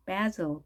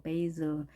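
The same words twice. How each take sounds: First: "베즐" as BAZ-ul, short 'a' as in cat; short-vowel variant. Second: "베이즐" as BAY-zul, gliding first vowel; diphthong variant. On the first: Teacher comparing two valid pronunciations, short vowel in "베즐". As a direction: say "베즐" with short a and buzzing z. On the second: Teacher comparing two valid pronunciations, 'ay' glide in "베이즐". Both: Shown as a demonstration. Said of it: "두 가지 발음 다 가능합니다".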